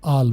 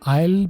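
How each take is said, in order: First: The vowel is a short flat 'ah'. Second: The vowel is a full 'eye' glide. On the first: The speaker calls it right. "बेहतर है कि आप आल बोलें" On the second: The speaker calls it wrong. "आयल भी कर सकते हैं, गलत तो नहीं है"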